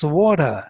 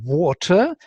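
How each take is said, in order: First: The t between the vowels is softened, American style. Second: The t between the vowels is clearly pronounced.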